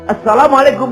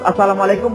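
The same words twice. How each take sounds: First: It is said calmly and respectfully. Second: It is huffed out carelessly and dismissively. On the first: The speaker honours the listener. The speaker calls it right. "Salam yang benar" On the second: The speaker does not respect the listener. The speaker calls it wrong. "kita mulai ngos"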